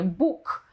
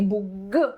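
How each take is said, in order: First: The final consonant is voiceless, like k. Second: The final consonant is voiced, like g. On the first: The speaker calls it right. "to mówimy właśnie Bóg" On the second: The speaker calls it wrong. "a nie Bóg, bo jeżeli ja powiem Bóg, to jest hiperpoprawność"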